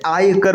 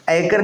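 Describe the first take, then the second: First: आयकर said as "aaykar", long aa; correct long vowel. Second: आयकर said as "aikar", short start; wrong short vowel. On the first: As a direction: open आयकर on a full "aay". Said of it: "होता है". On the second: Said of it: "नहीं होता है". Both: Shown as a demonstration.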